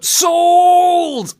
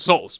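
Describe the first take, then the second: First: "Souls" bellowed high and drawn out; overdone emphasis on souls. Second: Said in the usual way. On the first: Retold or imitated. Co-host mocks the actor's emphasis, "Souls" held in a high shout. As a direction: blast "Souls" loud, holding the vowel. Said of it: "way too much emphasis on souls". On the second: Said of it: "just say it normally".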